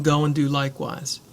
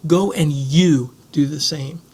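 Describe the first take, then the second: First: Said in the usual way. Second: Slow, with "you" leaned on hard; stress on you. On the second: Shown as a demonstration. Preacher pressing the congregation, slow stress on "you". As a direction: say it slowly and press the word "you". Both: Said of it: "There's a real emphasis on the word you".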